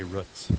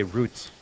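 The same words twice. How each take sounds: First: Roots with the vowel of foot; "roots" with the short vowel of put. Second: Roots with the vowel of boot; "roots" with a long oo. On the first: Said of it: "or would you say roots". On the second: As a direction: say "roots" rhyming with boots. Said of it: "unless you say". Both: Shown as a demonstration.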